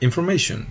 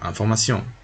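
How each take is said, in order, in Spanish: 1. Se pronuncia con sonidos ingleses. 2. Se pronuncia con sonidos franceses. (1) "y él dirá information" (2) "no, información"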